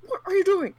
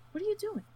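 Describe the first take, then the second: First: Loud, high, exasperated shout at the players; furious yell. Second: Incredulous. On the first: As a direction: yell it at them, fed up. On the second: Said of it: "And I'm like". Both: Retold or imitated.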